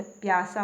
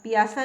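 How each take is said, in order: First: प्यासा in two syllables, pyaa-saa; correct pronunciation. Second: पियासा with extra i, pi-yaa-saa; wrong pronunciation. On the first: Teacher correcting learners, प्यासा joined as pyaa-saa. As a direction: glide p straight into y in प्यासा. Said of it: "प्यासा होता है". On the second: Teacher showing the mistake, पियासा split as pi-yaa-saa. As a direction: break पियासा into three syllables. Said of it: "पियासा नहीं होता". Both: Shown as a demonstration.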